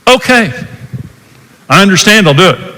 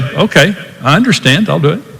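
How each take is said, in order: First: It is said in a frustrated tone. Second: It is said in a calm, caring tone.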